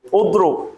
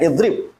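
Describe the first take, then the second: First: The word starts with a u vowel. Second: The word starts with an i vowel. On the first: It is colloquial dialect speech. "tapi kalau dia slang dia dah tukar, dia jadi udrub" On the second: It is formal classical Arabic. "idrib yang betul-betul fushah ikut Quran"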